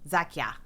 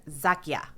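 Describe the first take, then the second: Both takes have the same delivery.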